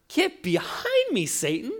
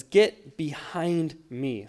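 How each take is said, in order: First: Much higher, slow, cutting rebuke; side-eyed rebuke. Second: Slow, weighty reading of the verse; quoted scripture. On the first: Jesus rebuking Peter who stepped beside him, sharp and high. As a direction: snap it at him with a sideways glare. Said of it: "side-eyes him fully and says". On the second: Pastor reading the verse slowly to the congregation. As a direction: let each word land slowly. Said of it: "the scripture says". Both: Retold or imitated.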